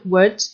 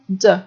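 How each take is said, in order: First: It is a short, reduced syllable with a weak vowel. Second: It is cut down to just a d sound. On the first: "prononcé dans sa forme faible" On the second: "ou même de"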